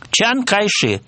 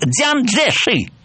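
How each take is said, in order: First: The name is said in its Cantonese form. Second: The name is said in its Mandarin form. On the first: This is how the name is known in the south. "это гуандунское произношение" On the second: This is how the name is read in the capital. "если он приезжает в Пекин, если его называют по его иероглифам, он звучит"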